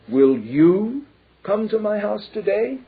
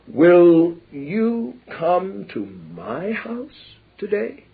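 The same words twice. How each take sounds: First: The stress is on "you". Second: The stress is on "my".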